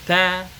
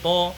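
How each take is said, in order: First: The t sound is thin and light. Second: The t sound is thick and heavy. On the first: The speaker calls it right. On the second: The speaker calls it wrong.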